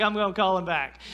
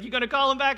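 First: Level, resigned echo of her words; meek surrender. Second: High, loud pointed question; pointed wife question. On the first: Husband echoing his wife's order, meekly giving in. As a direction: give in and repeat her order. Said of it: "I was like". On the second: Wife pressing her husband to call back, pointed. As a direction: press him like a wife who already knows. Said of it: "she was like". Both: Retold or imitated.

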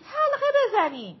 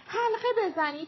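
First: Higher and louder «حلقه بزنید» with a falling end; full loud repeat of «حلقه بزنید» dropping at the end; louder shout. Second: High, raised call of «حلقه بزنید»; first shout of «حلقه بزنید», high but not yet full volume; Mira shouting. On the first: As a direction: push the call harder the second time. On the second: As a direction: start the call to form a circle. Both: A narrator's reading. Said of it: "میرا داد زد".

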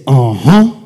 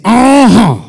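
First: Said in the usual way. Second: Much higher, loud uh-huh; preacher whipping up the crowd; shouted uh-huh. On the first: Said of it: "Everybody say". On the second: Shown as a demonstration. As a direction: belt it out.

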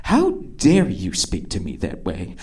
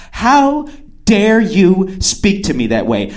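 First: Low, quiet mock outrage; soft, low, imitated indignation; hushed indignation. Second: Slow, full-voiced indignation; haughty, deliberate mock offence; mock outrage. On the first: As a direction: play offended under your breath. Acting offended woman, first take. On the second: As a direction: draw out each word as an imitated affront. Acting offended woman, escalating take.

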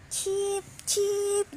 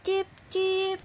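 First: High, bright bird cheeps; canary chirp. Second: High chirping bird voice; canary chirp. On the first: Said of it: "the canary said". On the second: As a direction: squeak out a warning chirp. Canary warning repeated. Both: A narrator's reading.

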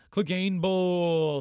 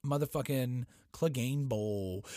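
First: Higher, louder and slow, stretched like an announcer; drawn-out hype yell. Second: Said in the usual way. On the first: Real, not acted. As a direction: call it out like a ring announcer. Hyping up the big fight.

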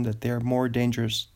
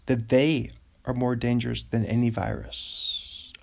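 First: Said in the usual way. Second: "they" leaned on, the rest read evenly; stress on they. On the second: Shown as a demonstration. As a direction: hit the word "they" as the twist. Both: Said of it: "emphasis on they".

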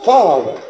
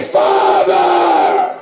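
First: "Father" said low and falling. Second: A hushed, reverent "Father"; whispered Father. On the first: Preacher to congregation, saying Father low and settled. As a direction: drop the voice deep on "Father". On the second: Preacher to congregation, whispering the word Father. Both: Shown as a demonstration. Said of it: "glad to say".

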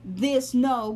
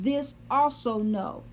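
First: Said in the usual way. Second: "also" leaned on, slowed and drawn out; slow down and land on "also"; stress on also. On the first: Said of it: "it could have just said". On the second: Shown as a demonstration. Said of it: "but it said".

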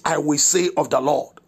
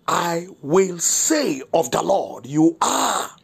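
First: Said in the usual way. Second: "I will say of the Lord" slow and drawn out, each key word stressed; emphatic declaration. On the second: Real, not acted. Pastor stressing the morning's verse, "I will say" slow and emphatic. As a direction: stretch "say" and "You are" with strong, deliberate emphasis. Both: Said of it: "So the emphasis this morning is".

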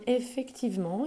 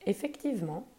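First: Pondering mother. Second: A touch softer, settled falling tune; conceding mother. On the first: Mother considers the fruit, lightly voiced and musing. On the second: Mother agrees about the mangoes, lightly voiced and calm. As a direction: concede the point calmly. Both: A narrator's reading. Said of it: "répliqua sa maman".

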